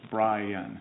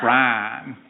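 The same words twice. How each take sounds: First: BRIAN said as two syllables, Bry-an. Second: BRIAN squashed into one syllable, Bran. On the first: Explaining how mother said BRIAN, two soft syllables. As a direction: say BRIAN with both syllables, softly. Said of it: "it would be two syllables". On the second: Showing the Texas correction, BRIAN as one syllable. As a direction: run BRIAN together as a single beat. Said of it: "my name only has one syllable". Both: Shown as a demonstration.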